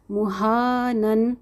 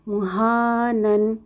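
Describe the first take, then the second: First: مہانن said slowly with drawn-out ha; slow recitation demo. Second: مہانن again slowly, long vowel held; repeat of recitation demo. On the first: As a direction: stretch the alif madd. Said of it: "یہاں دیکھیے مہا". (آہستہ مد کے ساتھ) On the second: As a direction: model the word once more. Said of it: "دہرائی بھی ذہن میں رکھا کریں". (دوبارہ آہستہ ادائیگی) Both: Shown as a demonstration.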